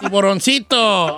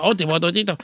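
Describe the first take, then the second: First: "Tiburoncito" slow, every syllable distinct; careful, stretched "Tiburoncito"; clarifying the word. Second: "tipototito" low and mushy for tiburoncito; "tipototito" with slurred consonants; garbled word. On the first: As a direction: spell out "Tiburoncito" slowly for the listener. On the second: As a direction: slip back into a mangled "tipototito". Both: Acted. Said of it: "¿Tu qué?".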